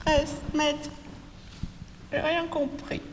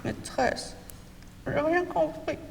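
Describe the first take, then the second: First: High, soft little pupil voice; whiny child. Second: Breathy high pupil voice, barely voiced; a timid child whispering for help; whispered child plea. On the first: Pupil calling the teacher, high soft whine. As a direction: plead like a lost child in class. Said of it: "ils vont faire comme ça". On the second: Pupil calling the teacher again, faint whisper. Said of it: "Je le refais". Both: Shown as a demonstration.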